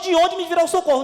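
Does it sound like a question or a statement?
statement. It is said as a flat statement.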